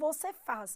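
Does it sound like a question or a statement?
statement. It is said with statement intonation. It asserts that the listener does it. "se eu falar você faz"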